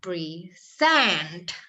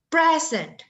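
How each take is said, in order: First: The stress is on the second syllable. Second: The stress is on the first syllable. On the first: "Kalau yang ditekan itu yang kedua" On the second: "ketika silabul pertama yang ditekan, maka bunyinya present"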